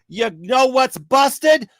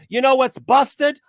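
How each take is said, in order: First: Shouted question. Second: Pointed question, a touch higher and slowed; rhetorical question. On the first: Ranting speaker shouting the question at his audience, slow shout. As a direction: hammer the question home, slowly. Repeated question, building to reveal. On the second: Speaker teasing his viewers before the reveal, pointed rhetorical tone. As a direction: set up the punchline with a knowing question. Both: Real, not acted.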